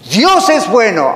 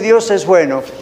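First: It is said loudly, almost shouted, with excitement. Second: It is said flatly, without enthusiasm.

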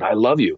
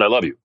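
First: It is said warmly, with passion. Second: It is said coldly and flatly.

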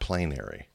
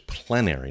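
First: The first syllable sounds like 'plain'. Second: The first syllable sounds like 'plen'. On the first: The speaker calls it wrong. "It's not plain" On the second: The speaker calls it right. "Actually, it's P-L-E-N-A"

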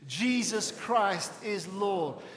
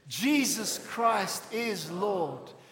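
First: It is said calmly, with less passion. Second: It is said with more passion and energy.

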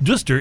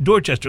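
First: The name is cut short, like duster. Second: Every spelled syllable of the name is pronounced. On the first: The speaker calls it wrong. "is not pronounced Duster" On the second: The speaker calls it right. "It's pronounced Dorchester"

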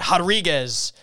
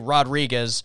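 First: The name is said with an h sound. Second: The name is said without an h sound. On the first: "the pronunciation of Rodriguez with an H" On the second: "that's how they pronounce their last name"

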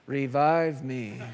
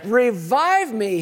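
First: It is said flatly, with little energy. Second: It is said forcefully, with rising energy. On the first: The speaker calls it wrong. "you can't say revive me like this" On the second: The speaker calls it right. "You got to stir yourself up a little bit"

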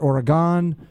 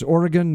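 First: The ending is said as if it had an E. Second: The ending is said without an added E sound. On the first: The speaker calls it wrong. "not Oregon. There's no E at the end of Oregon" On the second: The speaker calls it right. "I learned that it's Oregon"

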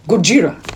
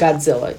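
First: It is said with a put-on foreign accent. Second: It is said with a plain American accent. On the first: "I don't know why I said it with that accent" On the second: "Because I'm American and we call it Godzilla"

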